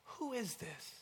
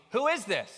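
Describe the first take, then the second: First: Soft, high, awed question; hushed wonder. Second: Loud, high, punchy curiosity; curious question. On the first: Preacher showing the second way to ask, in wonder. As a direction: ask it softly in amazement. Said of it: "out of wonder". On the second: Preacher showing the question asked out of curiosity, curious. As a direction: ask it eagerly, raised and loud. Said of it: "Out of curiosity". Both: Shown as a demonstration.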